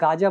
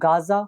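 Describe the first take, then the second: First: The middle consonant is a j sound. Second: The middle consonant is a z sound. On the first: "इसको हिंदी में गाजा बोलते हैं" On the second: "इसके अगर नीचे बिंदु लगा दी जाए तो इसको बोलते हैं ज"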